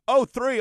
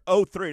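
First: Surprised question, pitch up; oh three? asked with surprise. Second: Said in the usual way. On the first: Retold or imitated. Guy surprised at truck year.

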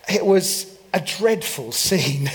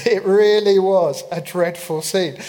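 First: Said in the usual way. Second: Said through a laugh, a little louder. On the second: Shown as a demonstration. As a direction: chuckle at the disaster as you say it.

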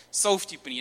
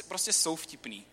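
First: Jsou vtipný said louder and firmer; insist they are funny. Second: Said in the usual way. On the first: Shown as a demonstration. Preacher to congregation, repeating Jsou vtipný louder, insisting.

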